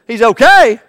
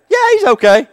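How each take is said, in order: First: Loud disbelieving "He's okay?"; incredulous patient. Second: Much higher, brushing it off; high breezy nurse. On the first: Hospital patient questioning the nurse, loud disbelief. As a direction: throw it back in shock. Patient doubts doctor in skit. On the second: Nurse reassuring the patient, high and breezy. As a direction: chirp it off lightly. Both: Acted.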